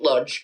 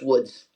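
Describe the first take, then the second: First: The name is said with English-style sounds. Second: The name is said with Polish-style sounds. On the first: "I'm going to pronounce it Lodz" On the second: "it's Woods if you're Polish"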